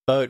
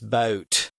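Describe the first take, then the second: First: The vowel is short and plain. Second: The vowel is long and stretched out.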